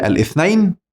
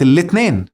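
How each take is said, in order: First: The word starts with a vowel and has a th sound. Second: The th sound is replaced by a t sound. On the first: "كانت الأول بالعربية الاثنين" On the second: "كلنا الثاء بقت تاء بقت الاثنين"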